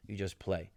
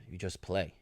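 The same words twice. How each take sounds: The two takes are said the same way.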